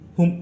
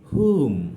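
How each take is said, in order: First: The vowel is short and clipped. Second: The vowel is long and drawn out. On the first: The speaker calls it wrong. "হুম নয়" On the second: The speaker calls it right. "মানে একটু সময় নিয়ে pronounce করতে হবে"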